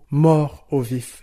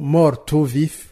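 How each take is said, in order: First: The words stay separate with no linking consonant. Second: The final consonant links into the next vowel. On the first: The speaker calls it right. "Non, on dira" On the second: The speaker calls it wrong. "on ne peut pas dire par exemple"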